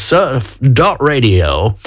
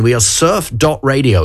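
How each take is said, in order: First: Slow, spelled out. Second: Said in the usual way. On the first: Acted. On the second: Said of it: "It's surf dot radio".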